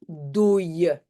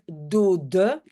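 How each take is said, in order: First: The middle d sound is replaced by a glide. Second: The middle d sound is clearly pronounced. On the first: "on va plutôt dire dooie" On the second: "au lieu de dire dode"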